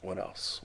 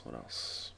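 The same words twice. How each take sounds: First: Said in the usual way. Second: Lower, softer whisper; whispering while searching memory; whispered to self. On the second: Real, not acted. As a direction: let it fade to a whisper.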